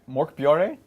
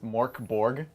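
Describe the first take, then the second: First: The name is pronounced in a Swedish-sounding way. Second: The name is pronounced in a plain English way. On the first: The speaker calls it right. "I picked up Mork Mork Bjore" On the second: The speaker calls it wrong. "That's not how you say it"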